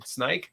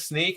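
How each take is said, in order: First: It has the eye vowel, rhyming with bike. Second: It has the long ee vowel of seek. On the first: The speaker calls it wrong. "It's not snike as in snike" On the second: The speaker calls it right. "it is sneak"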